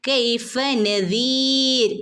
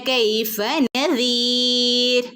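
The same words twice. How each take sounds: The two takes are said the same way.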